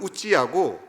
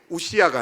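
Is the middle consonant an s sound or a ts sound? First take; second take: ts sound; s sound. First: The middle consonant is a ts sound. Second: The middle consonant is a plain s sound. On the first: This is the original Hebrew form of the name. The speaker calls it right. "히브리식 발음은 우찌야고" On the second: This is the familiar form of the name. The speaker calls it wrong. "우시야가 아니고"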